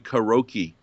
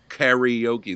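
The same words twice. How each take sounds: First: The word is said in English with no middle 'ee'. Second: The word is said with an 'ee' sound in the middle. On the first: The speaker calls it right. "which Americanized should be karaoke" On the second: The speaker calls it wrong. "but not karaoke. There's no E in the middle of that word"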